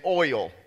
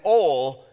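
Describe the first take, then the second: First: It is said in a general American accent. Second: It is said in a Southern accent.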